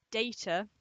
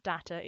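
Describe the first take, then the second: First: "data" said DAY-tuh, firm and louder; DAY-ta pronunciation. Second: "data" said DAH-tuh; DAT-a pronunciation. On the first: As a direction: say "data" with a long ay. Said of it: "it is data". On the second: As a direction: say "data" with an open a, as the rejected version. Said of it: "not data". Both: Shown as a demonstration.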